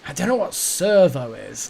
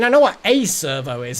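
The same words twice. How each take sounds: First: Said in the usual way. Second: "a" stressed and said as full "ay". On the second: Real, not acted. Streamer correcting himself about the slang word, stress on "a". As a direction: lean on "a", pronounced like the letter A. Contrasts servo with a servo.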